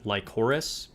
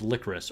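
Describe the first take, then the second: First: The word sounds like 'Lycoris'. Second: The word sounds like 'licorice'. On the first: The speaker calls it wrong. "I thought it was like Lycoris" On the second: The speaker calls it right. "It's licorice, or at least that's how they pronounce it in the show"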